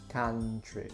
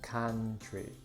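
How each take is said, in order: Both takes have the same delivery.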